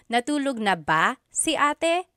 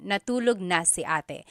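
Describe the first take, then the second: First: "Natulog na ba si ate" higher, rising at the end; question tune. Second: "Natulog na si ate" falling to the end; statement tune. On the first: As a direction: ask "Natulog na ba si ate" with a lifted ending. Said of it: "it turns it into a question". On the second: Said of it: "these are all just statements". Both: Shown as a demonstration.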